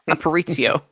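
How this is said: The name is said with an American-sounding accent. "I'm saying like American"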